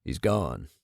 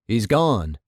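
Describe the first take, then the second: First: Low, soft murmur; hushed, dropped right down in pitch; barely audible. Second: Said in the usual way. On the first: A narrator's reading. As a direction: say it too softly to be heard clearly. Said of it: "too softly to hear clearly".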